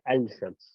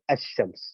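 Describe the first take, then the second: First: The 'l' is clearly sounded before the 'sh'. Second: The 'l' blends into a doubled 'sh' sound. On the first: The speaker calls it wrong. "You don't say Al-Shams" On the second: The speaker calls it right. "you pronounce it as Ash-Shams"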